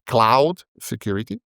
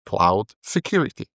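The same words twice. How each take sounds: First: Cloud hit hard, security light; stress on CLOUD. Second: Cloud light, security punched; stress on SECURITY. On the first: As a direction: lean on the word cloud, let security fall away. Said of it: "You could put the emphasis on the word cloud". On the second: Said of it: "or you put the emphasis on the word security". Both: Shown as a demonstration.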